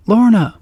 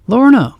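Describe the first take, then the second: First: High, loud urgent call again. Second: High, loud urgent call. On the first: Repeated call. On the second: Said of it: "calls out Wirt". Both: Acted. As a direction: call her name in alarm.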